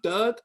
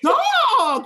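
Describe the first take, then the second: First: The vowel sounds like the one in 'Doug'. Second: The vowel sounds like the one in 'dog'. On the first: This is how some people from Baltimore say it. "they call it Doug, D U G" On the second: This is the usual way to say it. "you mean dog"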